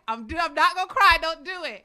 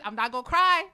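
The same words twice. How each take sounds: First: Much higher, louder, rushed, voice cracking; losing the fight against tears. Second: Holding back tears. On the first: Author telling herself not to cry while her voice breaks. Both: Real, not acted.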